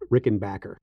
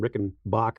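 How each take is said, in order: First: The name ends with a full 'backer' sound. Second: The name ends with a short 'bach' sound. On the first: The speaker calls it right. "It's Rickenbacker" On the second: The speaker calls it wrong. "I got nasty email because I kept saying Rickenbach"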